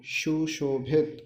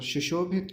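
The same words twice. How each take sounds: First: सुशोभित slowly as "shu-sho-bhit"; sha for sa. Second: Said in the usual way. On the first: Shown as a demonstration. Teacher showing a common mistake, सुशोभित said as "shu-sho-bhit". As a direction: break सुशोभित into syllables, opening with "sh". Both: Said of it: "सा को शा भी कहते हैं".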